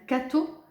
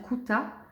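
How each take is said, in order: First: The first syllable has an 'a' sound. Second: The second syllable has an 'a' sound. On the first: "S'il vous dit dans la première syllabe, on dit c'est un cateau" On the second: "S'il vous dit dans la deuxième syllabe, on dit c'est un couta"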